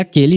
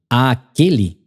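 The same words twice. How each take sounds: First: The opening vowel is short and plain. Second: The opening vowel is drawn out and doubled. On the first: The speaker calls it right. "Você vai dizer aquele mesmo rosto que" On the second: The speaker calls it wrong. "a minha pronúncia, moçada, ela é forçada só pra gente entender que tem essa crase aí"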